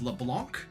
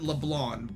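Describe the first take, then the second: First: The final C sound is clearly pronounced. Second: The final C sound is left silent. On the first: The speaker calls it wrong. "So I've always pronounced it as LeBlanc, which I mean I know technically is incorrect, but the C is there" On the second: The speaker calls it right. "Makoto pronounces it LeBlanc"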